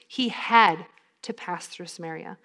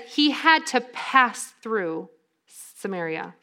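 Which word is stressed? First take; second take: had; none. First: The word had is strongly stressed. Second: The sentence is read with neutral stress. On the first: The speaker calls it right. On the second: The speaker calls it wrong.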